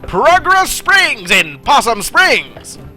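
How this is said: It is read in an old-timey radio announcer voice.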